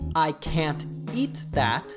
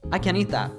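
First: The T in can't is clearly pronounced. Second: The T in can't is dropped and linked.

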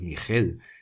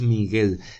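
First: The middle consonant is a throaty, rasping sound. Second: The middle consonant is a hard g sound. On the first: The speaker calls it wrong. "no lo llamamos Miguel" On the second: The speaker calls it right. "lo llamamos Miguel"

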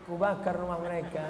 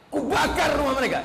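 First: It is said softly and gently. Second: It is said angrily and forcefully.

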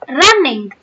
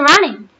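First: The final g sound is pronounced. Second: The final g sound is dropped. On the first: This is the British way of saying it. "But the Britishers use it as running" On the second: This is the American way of saying it. "I was from New Jersey and I said running, right? But I did not use G"

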